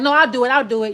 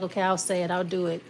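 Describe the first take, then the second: First: Loud, pushy cut-in; insistent interruption. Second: Mild, low-key agreement; compliant reply. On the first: Someone cutting off the querent as they start talking, insistent. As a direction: burst in much louder to take over. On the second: Querent agreeing to do it for someone, compliant. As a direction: give in without pushing. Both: Acted.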